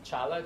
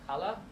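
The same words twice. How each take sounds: First: It begins with a ch sound. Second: It begins with a breathy h sound.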